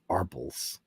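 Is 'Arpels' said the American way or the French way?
American. The name is said with an American pronunciation. "that's how an American would say it"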